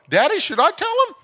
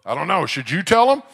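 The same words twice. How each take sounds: First: Put-on high, loud child's skit voice; little girl. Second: Loud playful father, rising at the end; dad in a skit. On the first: Seven-year-old on her daddy's shoulders asking him, little girl voice. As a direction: pipe up loudly like an eager kid. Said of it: "She'd sit up there and go". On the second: Retold or imitated. Daddy answering his daughter in their skit, playful dad voice. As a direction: toss the question loudly back to the child. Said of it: "A skit called Should I Tell Him".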